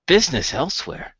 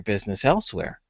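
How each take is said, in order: First: Indignant father throwing the words back; higher, questioning, mildly affronted; incredulous echo. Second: Said in the usual way. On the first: Acted. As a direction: repeat it as an offended question. Father echoes son's threat, offended. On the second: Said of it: "Ziggy, scratches the back of his head and he says".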